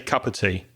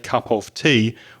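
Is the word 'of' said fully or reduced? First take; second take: reduced; full. First: The word 'of' is reduced to a weak sound. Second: The word 'of' is said fully and clearly. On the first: The speaker calls it right. "We'd say cup of tea or cuppa" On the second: The speaker calls it wrong. "British people wouldn't normally say cup of tea"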